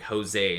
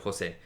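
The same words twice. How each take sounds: First: The name is said with an American pronunciation. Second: The name is said with a Spanish pronunciation. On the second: This is the speaker's real name as it is meant to sound.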